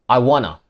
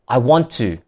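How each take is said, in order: First: The words blend together into 'wanna'. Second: Each word is said fully and separately.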